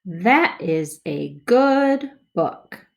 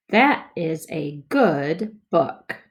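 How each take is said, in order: First: Smoother reading. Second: Slow, word by word; slow choppy reading. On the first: Teacher models smoother second read for kids. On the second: Teacher models first slow read for kids. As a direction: read each word apart, slowly. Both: Shown as a demonstration. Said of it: "More smoothly".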